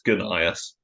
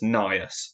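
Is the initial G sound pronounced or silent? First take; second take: pronounced; silent. First: The name starts with a pronounced g sound. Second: The name starts with an n sound, no g. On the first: "and not as Gunnius" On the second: "some people argue it's pronounced as Nias"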